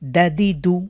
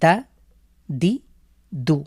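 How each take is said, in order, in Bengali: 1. অক্ষরগুলো দ্রুত ও একসাথে মিশিয়ে বলা হয়। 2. অক্ষরগুলো ধীরে ও আলাদা আলাদাভাবে বলা হয়। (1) "একসাথে" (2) "আপনি যদি ধীরেও পড়েন তারপরেও টানা যাবে না"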